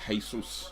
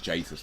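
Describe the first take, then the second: First: "Jesus" said as hay-SOOS; "Jesus" the Spanish way, hay-SOOS; corrected pronunciation. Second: "Jesus" said as JAY-suss; "Jesus" starting with a hard English J; wrong pronunciation. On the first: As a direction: say "Jesus" with an H sound, ending in soos. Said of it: "It's Jesus. If he's Brazilian". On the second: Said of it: "His name is not Jesus". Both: Shown as a demonstration.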